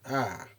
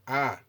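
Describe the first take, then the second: First: The pitch falls across the vowel. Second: The pitch stays high and level. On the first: "the decreasing intonation" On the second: "high intonation is indicated with the circumflexed accent"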